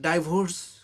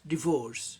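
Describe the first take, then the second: First: The first vowel sounds like 'eye'. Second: The first vowel sounds like 'ih'. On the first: The speaker calls it wrong. "इसे बहुत लोग डाइवोर्स का उच्चारण करते हैं" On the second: The speaker calls it right. "लेकिन सही उच्चारण डिवोर्स"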